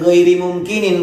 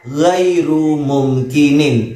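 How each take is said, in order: First: The first word ends in an i vowel. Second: The first word ends in a u vowel. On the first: The speaker calls it wrong. "Itu bukan ghairi mumkinin Pak Ustadz" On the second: The speaker calls it right. "Jadi yang benar adalah ghairu mumkinin"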